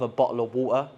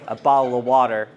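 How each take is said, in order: First: It is said in a British accent. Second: It is said in an American accent.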